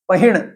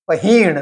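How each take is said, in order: First: The second syllable has a short i vowel. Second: The second syllable has a long i vowel. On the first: The speaker calls it wrong. "छोटी ई की मात्रा करके अशुद्ध उच्चारण" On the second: The speaker calls it right. "ह की दीर्घ उच्चारणा की है"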